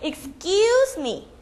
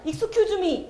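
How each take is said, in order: First: The middle syllable is stretched long. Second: The middle syllable is short. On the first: The speaker calls it right. "쟤를 길게 말하면" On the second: The speaker calls it wrong. "excuse me 이러면 안 돼요"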